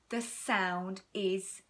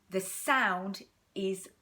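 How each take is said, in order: Both takes have the same delivery.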